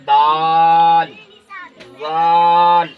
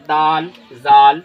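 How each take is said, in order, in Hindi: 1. स्वर खींचे जाते हैं और लंबे रखे जाते हैं। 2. स्वर छोटे बोले जाते हैं, बिना खींचे। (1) "इस तरह से खींच करके" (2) "इस तरह नहीं पढ़ना चाहिए"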